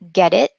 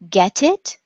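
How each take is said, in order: First: The T is a soft, quick tap. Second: The T is a crisp, clear stop.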